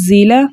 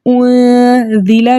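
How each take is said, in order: First: The first consonant is a whistling z sound. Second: The first consonant is a soft dh sound. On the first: The speaker calls it right. "जा के मखरज सीटी के साथ पढ़ना है" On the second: The speaker calls it wrong. "अब इसको हमने ज़ीला नहीं पढ़ना, ये ज़ाल नहीं है"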